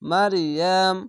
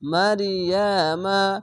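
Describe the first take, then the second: First: It ends on a held m, then stops. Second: It ends on an open ma vowel. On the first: The reading stops at this word. The speaker calls it wrong. "এখানে থামতে গেলে মারিয়াম মারিয়াম এভাবে থেমে যেতে হবে" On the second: The reading joins on to the next words. The speaker calls it right. "মিম যাবার মা উচ্চারণ হয়ে যাবে"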